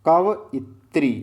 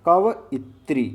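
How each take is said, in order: The two takes are said the same way.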